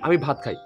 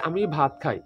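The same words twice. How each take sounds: First: It is said quickly, all in one go. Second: It is said slowly, word by word. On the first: The speaker calls it right. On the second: The speaker calls it wrong.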